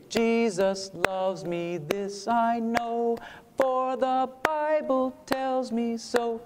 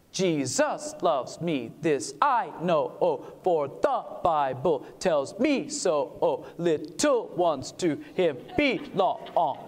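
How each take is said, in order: First: Put-on slow, simple children's singing; sung like a little kid. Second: Slow hymn with the accent shifted to beat two; syncopated on the two. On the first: Showing the audience a little kid singing the hymn. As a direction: sing it the way a child would. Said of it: "a little kid would sing it". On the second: To the audience, singing the hymn syncopated on two. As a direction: lean on the offbeat two. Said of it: "shift it from the one to the two". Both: Shown as a demonstration.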